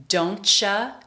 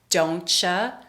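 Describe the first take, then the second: Both takes have the same delivery.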